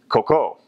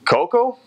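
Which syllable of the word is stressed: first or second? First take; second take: second; first. First: The stress is on the second syllable. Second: The stress is on the first syllable. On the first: The word means poop. The speaker calls it wrong. "I said coco, which is poop" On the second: The word means coconut. The speaker calls it right. "instead of saying coco"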